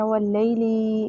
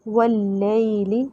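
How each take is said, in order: First: वल्लैली with the second lam wrongly drawn out; wrong pronunciation. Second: वल्लैली with a short second lam, said slowly; correct pronunciation. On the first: Teacher showing students the wrong reading, वल्लैली with a dragged lam. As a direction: stretch the lam in वल्लैली, the incorrect way. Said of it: "इस तरह से नहीं पढ़ना". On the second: Teacher giving students the right reading, वल्लैली with a short lam. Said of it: "दूसरा लाम खींचना नहीं है". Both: Shown as a demonstration.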